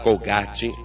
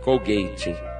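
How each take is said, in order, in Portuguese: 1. Pronuncia-se com a pronúncia do português brasileiro. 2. Pronuncia-se com a pronúncia do inglês americano. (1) "eu vou falar Colgate porque é como ela é conhecida aqui no Brasil" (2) "Nos Estados Unidos se pronuncia Colgate"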